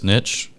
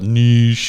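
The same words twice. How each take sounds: First: The word is pronounced the plain English way. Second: The word is pronounced the French way. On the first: This is how the speaker always says it. The speaker calls it right. "I will forever say it's niche" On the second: This is the way others say it. The speaker calls it wrong. "French or any other European dialect that feels the need to call it"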